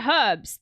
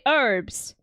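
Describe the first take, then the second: First: The word begins with a sounded h. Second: The word begins without any h sound. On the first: This is the speaker's own non-American way. The speaker calls it right. "Americans don't say herbs. That H is not silent" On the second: This is how Americans say it. The speaker calls it wrong. "They say herbs"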